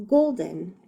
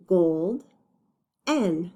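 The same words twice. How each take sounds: First: Said in the usual way. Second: GOLD, N as two separate beats with a long gap; GOLD, pause, then N on its own; broken into syllables. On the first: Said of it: "then let's read the word". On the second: Shown as a demonstration. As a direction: sound out golden part by part. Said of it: "read them when they're broken up".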